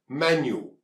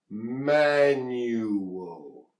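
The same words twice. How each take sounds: First: Its three sounds are said quickly and squeezed together. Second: Its three sounds are said slowly and separately. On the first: "when we speak it quickly, these sounds get squeezed together" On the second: "Three sounds"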